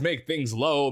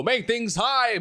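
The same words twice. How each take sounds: First: Showman dropping the voice low; dramatically low. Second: Showman swooping up high; dramatically high. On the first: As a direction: dip down for drama. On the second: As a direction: lift the pitch high for drama. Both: Shown as a demonstration.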